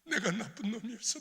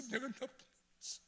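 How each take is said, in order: First: Higher, pleading 내가 나쁜 놈이었어; pleading confession. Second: Softer, high, breaking 내가 나쁜 놈이었어; broken repeat. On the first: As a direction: beg her forgiveness. (아내에게 용서를 비는 목소리) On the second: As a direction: let the repeat crumble. (아내에게 무너지듯 조용히 반복) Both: Retold or imitated. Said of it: "아니야, 아니야".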